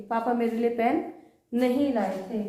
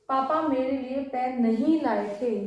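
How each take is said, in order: No difference in how they are said.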